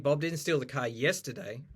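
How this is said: The stress falls on the word yesterday. It happened on another day. "If you put the stress on yesterday"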